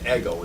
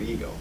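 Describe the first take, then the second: First: The first vowel is a short 'eh' sound. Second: The first vowel is a long 'ee' sound. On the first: It names the higher nature, as distinct from psychology's use. "let's pronounce it ego" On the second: It names the ego in the sense used by modern psychology. "instead of ego"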